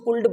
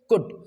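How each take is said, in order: First: The L sound is pronounced in the word. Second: The L sound is silent in the word. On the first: The speaker calls it wrong. "बहुत सारे लोग इसको कुल्ड पढ़ते हैं" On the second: The speaker calls it right. "The correct pronunciation is कुड"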